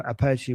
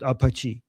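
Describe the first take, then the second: First: Apache with flat "a" as in cat, "uh-PATCH-ee"; American pronunciation. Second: Apache with open "ah" vowels, "ah-pah-chee"; Iranian pronunciation. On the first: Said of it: "whatever you guys say". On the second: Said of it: "We call it Apache". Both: Shown as a demonstration.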